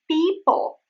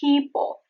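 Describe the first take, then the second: First: The first p has no puff of air. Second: The first p has a puff of air. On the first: The speaker calls it wrong. "which is wrong" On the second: The speaker calls it right. "There is the aspiration"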